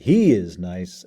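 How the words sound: It is said with strong emphasis on one word. This particular person, and no other, is nice. "in a demonstrative manner, it's something that is more than normal"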